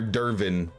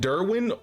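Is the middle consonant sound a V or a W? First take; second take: V; W. First: The middle consonant is pronounced as a V. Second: The middle consonant is pronounced as a W. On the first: "I know W sound like V's" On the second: "Derwin sounds better?"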